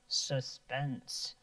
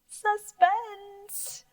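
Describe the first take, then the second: First: The word is spoken in a low pitch. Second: The word is spoken in a high pitch. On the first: "Can you say it low?" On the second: "if you're really scared, you might say it high"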